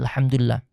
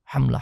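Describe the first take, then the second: First: Every syllable is said fully and carefully. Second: It is rushed and squashed into two syllables. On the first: The praise is meant sincerely. The speaker calls it right. "memuji Allah dengan kalimat alhamdulillah" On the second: It is said as a formality to finish quickly. The speaker calls it wrong. "Karena formalitas pengen cepat selesai, enggak alhamdulillah yang keluar"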